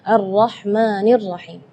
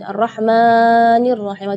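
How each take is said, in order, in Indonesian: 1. Vokal panjang dibaca selama dua ketukan. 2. Vokal panjang dibaca lebih dari dua ketukan. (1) "tidak boleh lebih madnya dari dua harakat" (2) "itu tidak boleh"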